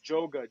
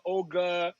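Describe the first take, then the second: First: The name starts with a J sound. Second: The name starts with a vowel sound. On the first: The speaker calls it right. "Just think J O G A" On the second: The speaker calls it wrong. "a lot of people say my D J name wrong"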